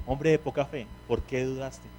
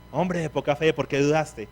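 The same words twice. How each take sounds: First: Softer, tender read of "Hombre de poca fe"; fatherly tone. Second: Stern scolding read, "Hombre de poca fe" like a rebuke. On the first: Preacher reads Jesus' words as a tender father. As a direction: say it gently, like a loving father. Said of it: "Que cambia el tono". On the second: Preacher reads Jesus' words as a scolding master. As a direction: read it as a harsh master's reproach. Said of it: "voy a ver esto como un regaño". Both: Shown as a demonstration.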